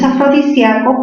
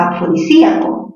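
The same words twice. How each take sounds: First: Afrodisíaco with sia as one stressed syllable; diphthong ia. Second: Afrodisíaco with stressed í split from the a. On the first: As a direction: say afrodisíaco as a-fro-di-SYA-co. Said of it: "como es grave". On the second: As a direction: break afrodisíaco as a-fro-di-SÍ-a-co. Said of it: "tildación disolvente". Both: Shown as a demonstration.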